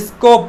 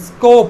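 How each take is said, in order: Both takes have the same delivery.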